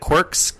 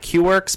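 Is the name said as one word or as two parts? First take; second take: one word; two parts. First: The name is said as one word. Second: The name is said as two parts. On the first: The speaker calls it right. "So you can find that on Instagram at Quirks" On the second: The speaker calls it wrong. "like Q-Works, but never say it like that. It's ridiculous"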